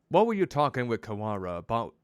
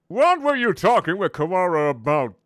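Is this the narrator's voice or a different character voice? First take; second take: narrator's voice; character voice. First: It is said in the narrator's usual voice. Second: It is said in a different character's voice.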